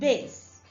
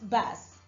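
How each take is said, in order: First: The vowel sounds like 'case'. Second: The vowel sounds like 'cat'. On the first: It names the lowest musical tone. "the lowest tone in music" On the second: It names a kind of fish. "meaning a kind of fish that is eaten"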